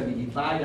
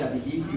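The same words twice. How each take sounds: First: Abilify ending in "-fai"; English-style ending. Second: Abilify ending in "-fi"; Spanish-style ending. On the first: Teacher offers students one way to pronounce it, Abilify ending "-fai". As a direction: say Abilify with the last syllable rhyming with "eye". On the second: Teacher offers students the other pronunciation, Abilify ending "-fi". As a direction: say Abilify with the last syllable rhyming with "see". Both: Shown as a demonstration. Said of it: "no sé cómo se pronuncia".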